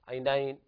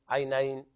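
No difference in how they are said.

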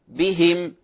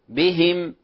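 Both takes have the same delivery.

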